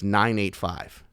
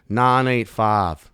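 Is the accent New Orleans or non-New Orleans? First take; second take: non-New Orleans; New Orleans. First: It is spoken in a clearer, non-local accent. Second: It is spoken in a slurred New Orleans accent. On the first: "I still have a North Shore area code" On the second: "a person from New Orleans would say that exact same thing, like this"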